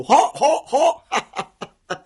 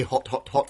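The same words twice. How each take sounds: First: "Hot, hot, hot" high and loud with tongue out; goofy panting "Hot, hot, hot", about to laugh; silly tongue-out voice. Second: Said in the usual way. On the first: Shown as a demonstration. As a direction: say "Hot, hot, hot" without a clean final t, tongue hanging out. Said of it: "so you sound silly". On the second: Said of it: "very normally".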